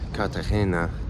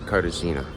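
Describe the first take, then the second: First: It is pronounced with Spanish sounds. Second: It is pronounced with English sounds. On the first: "I know that it's called Cartagena" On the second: "I'm gonna call it Cartagena"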